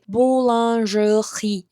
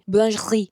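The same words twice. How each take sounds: First: Each of the last two syllables is said separately. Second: The last two syllables are merged into one. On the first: This is not how native speakers say it. "you guys don't say like boulangerie" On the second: This is how native speakers say it. "You kind of like get the last two syllables and turn into one"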